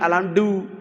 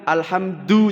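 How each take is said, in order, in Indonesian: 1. Kata ini diucapkan dengan bunyi berlogat Jawa. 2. Kata ini diucapkan dengan bunyi Arab. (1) "jangan alhamdu" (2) "Sehingga alhamdu"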